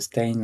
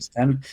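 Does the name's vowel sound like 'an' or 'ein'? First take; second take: ein; an. First: The vowel sounds like 'ein' in Stein. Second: The vowel sounds like 'an' in Stan. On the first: "certaines personnes se demandent s'il faut prononcer Stein" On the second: "ou Stan"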